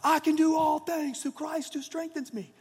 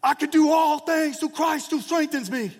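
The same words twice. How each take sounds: First: High shouted echo from the crowd; team screaming back. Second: High, loud yelled battle cry; screaming at the top of his lungs. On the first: Hundred players answering Verron, high group shout. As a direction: roar it back as the whole team. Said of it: "all the other hundred guys scream out as well". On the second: Verron yelling to the dark locker room, high loud scream. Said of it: "Verron screams at the top of his lungs". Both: Retold or imitated.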